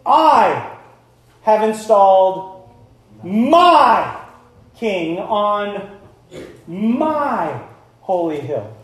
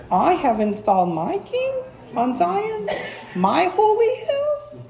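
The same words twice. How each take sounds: First: "I" and "my" punched loud, a pause after each; slow, commanding proclamation hammering "I" and "my"; stern, possessive emphasis. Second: Timid, high-pitched questioning lilt; slow and halting, voice climbing very high as if asking; hammed-up meek, squeaky uncertainty; wrong tone. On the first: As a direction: claim ownership on every "my", word by word. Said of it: "you can imagine how it's said now". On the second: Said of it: "how do you think God is saying that". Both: Shown as a demonstration.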